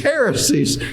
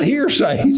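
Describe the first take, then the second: First: The word is said like 'hair-uh-sees'. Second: The word is said like 'hear-says'. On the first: The speaker calls it right. "it's heresies" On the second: The speaker calls it wrong. "he pronounced it hearsays"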